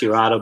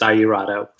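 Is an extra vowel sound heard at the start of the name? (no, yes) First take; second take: no; yes. First: The letter I is silent in the name. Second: The letter I is sounded in the name. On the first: This is the Italian pronunciation. "in Italy, the I the I is silent, so it's pronounced" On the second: This is the American pronunciation. "here in the States, uh, you pronounce the I"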